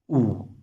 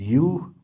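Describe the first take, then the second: First: The letter is pronounced the German way. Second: The letter is pronounced the English way. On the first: "but in German, it is U" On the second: "In English, it is U"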